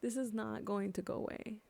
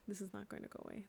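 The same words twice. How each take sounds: First: Said in the usual way. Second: Much softer, sinking repeat of the line; quieter repeat. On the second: Real, not acted. Grieving speaker repeating the warning to herself, softly. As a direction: drop the voice as if to yourself.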